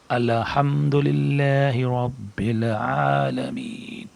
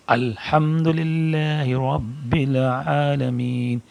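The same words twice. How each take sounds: First: الحمدللہ رب العالمین with ال drawn out, a doubled lam; slow recitation with an extra l sound; wrong extra lam. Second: الحمدللہ رب العالمین with a single lam and clear hamd; slow careful recitation, a single l; correct recitation. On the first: Teacher demonstrates the common mistake, slow drawn recitation. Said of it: "پہلی مرتبہ ... غلط ہوگا". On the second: Teacher shows students the right way, slow careful recitation. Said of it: "دوسری مرتبہ صحیح". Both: Shown as a demonstration.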